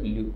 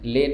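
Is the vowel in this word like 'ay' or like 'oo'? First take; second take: oo; ay. First: The vowel sounds like 'oo'. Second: The vowel sounds like 'ay'. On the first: The speaker calls it right. "बल्कि इसको पढ़ते लू" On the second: The speaker calls it wrong. "ले नहीं"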